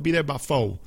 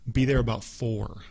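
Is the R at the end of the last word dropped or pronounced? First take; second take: dropped; pronounced. First: The final R of four is dropped. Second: The final R of four is pronounced.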